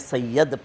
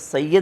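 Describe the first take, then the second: First: The last syllable has an 'a' vowel. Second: The last syllable has an 'i' vowel. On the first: The speaker calls it wrong. "ज़बर पढ़ी है जबकि ज़ेर होती है" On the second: The speaker calls it right. "लफ़्ज़ सय्यद होता है"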